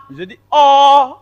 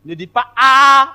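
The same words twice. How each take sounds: First: "O" held round, loud and higher; correct O. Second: "A" held wide open, loud and higher; wrong A. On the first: Teacher correcting the class, showing the rounded O. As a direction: stretch the "O" with oval mouth, tongue down, loudly. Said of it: "la langue se couche, la bouche ovale". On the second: Teacher correcting the class, showing the faulty open A. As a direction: stretch the "A" open and unrounded, loudly. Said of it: "votre A n'est pas bon". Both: Shown as a demonstration.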